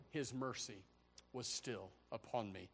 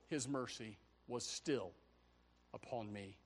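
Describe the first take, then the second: No difference in how they are said.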